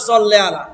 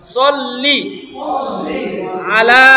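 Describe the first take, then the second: First: The first word ends with an 'eh' vowel. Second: The first word ends with an 'ee' vowel. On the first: The speaker calls it wrong. "বেশিরভাগই পরে সল্লে আলা, হবে না।" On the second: The speaker calls it right. "লি হবে, লে হবে না।"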